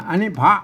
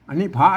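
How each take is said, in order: The two takes are said the same way.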